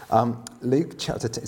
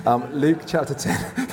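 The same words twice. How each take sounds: First: Said in the usual way. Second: Slower, laughing through the words; half-laughing repeat of the reference. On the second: Shown as a demonstration. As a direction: say it again while chuckling at the joke. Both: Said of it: "so that was a joke".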